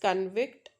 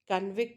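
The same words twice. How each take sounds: First: The stress is on the second syllable. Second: The stress is on the first syllable. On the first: It is the verb, to find someone guilty. "a verbal form when you focus on Vict" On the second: It is the noun, a prisoner. "when you focus on Con, so that is prisoner"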